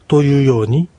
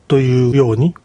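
No difference in how they are said.

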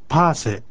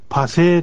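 First: The stress is on the first syllable. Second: The stress is on the second syllable. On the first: The speaker calls it right. "これも一番目にアクセントがあります。" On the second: The speaker calls it wrong. "パセーとしないようにしましょう。"

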